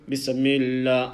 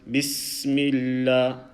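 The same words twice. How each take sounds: First: The s sound is cut short before m. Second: The s sound is held and flows into m. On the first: The speaker calls it wrong. "I let go of the sin sound. I didn't continue the sound" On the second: The speaker calls it right. "Let me do it correctly"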